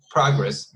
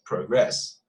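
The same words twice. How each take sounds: First: "progress" punched on the first syllable, PROG-ress; louder first syllable in "progress", short second one; noun stress on progress. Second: "progress" stressed on the second syllable, pro-GRESS; slow "progress", long o, weight on GRESS; verb stress on progress. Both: Shown as a demonstration. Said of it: "pronunciation changes because of the stress".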